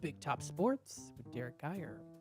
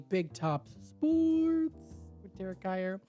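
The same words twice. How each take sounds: First: Said in a plain, ordinary announcing voice. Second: Said in a dramatic, lower-pitched announcer voice.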